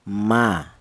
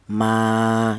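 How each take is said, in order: First: The vowel is short, held for one beat. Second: The vowel is long, held for two beats. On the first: "huruf mim ini dibaca pendek, hanya satu ketukan, hanya satu harokat" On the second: "harus dipanjangkan, yaitu satu alif atau dua harokat atau dua ketukan"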